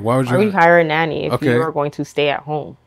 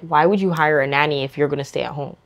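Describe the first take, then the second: First: The sentence is spoken slowly. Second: The sentence is spoken quickly.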